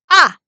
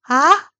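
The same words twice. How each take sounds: First: It is a short, forceful, shout-like burst. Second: The pitch rises upward. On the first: "화났을 때 야! 이렇게 소리 지르잖아요" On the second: "이성은 올라가게"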